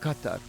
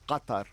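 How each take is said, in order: First: The first consonant sounds like a K. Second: The first consonant is deep, like a G. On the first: This is how other Arabic dialects say it. "Other Arabs would call it Qatar with a like a K" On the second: This is how the Gulf dialect says it. "But in the Gulf dialect, it's way down here"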